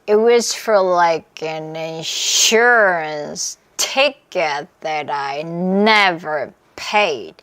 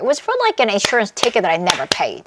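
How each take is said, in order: First: It is said slowly. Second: It is said fast.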